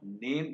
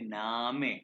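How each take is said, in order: First: It is said in one syllable, like 'naym'. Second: It is said in two syllables, like 'nah-meh'. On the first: The speaker calls it wrong. "Not नेम। English की तरह नेम नहीं कहेंगे" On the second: The speaker calls it right. "इसे कहेंगे नामे"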